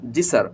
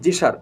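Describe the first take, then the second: First: The s is sharp, with more air. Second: The s is softer, with less air. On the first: The speaker calls it right. "এস এর উচ্চারণটা করতে হবে, এখানে বাতাসটা একটু বেশি বের হবে" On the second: The speaker calls it wrong. "এই কিন্তু সার হয়ে গেল"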